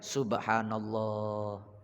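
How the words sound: It is said in a calm, devotional tone.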